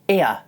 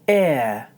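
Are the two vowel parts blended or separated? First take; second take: separated; blended. First: The two vowel parts are clearly separated. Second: The two vowel parts blend together smoothly. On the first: The speaker calls it wrong. "when I do it the wrong way, there seems to be a strong division between the two parts" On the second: The speaker calls it right. "When I do it the right way, the two parts blend together smoothly"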